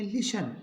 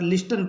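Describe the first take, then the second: First: लिशन with no T, sh straight into the final n; silent T. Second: लिस्टन with the T pronounced after the S; wrongly sounded T. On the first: Teacher corrects the common reading, लिशन with silent T. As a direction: drop the T in लिशन. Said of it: "टी का उच्चारण नहीं होगा". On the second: Teacher quotes a common mistake, लिस्टन with T sounded. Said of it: "ये नहीं होगा". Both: Shown as a demonstration.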